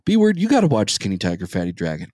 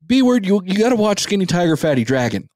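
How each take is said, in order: First: Mock a friend's pestering, dropping off at the end; nagging friend. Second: Higher, quicker imitated pestering; mock a pushy brother, pitched up and insistent; nagging brother. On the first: Co-host imitating his friend's movie pestering, lightly nagging. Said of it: "I would hear". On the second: Co-host imitating his friend's brother's pestering, high and nagging. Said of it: "I also hear from your brother".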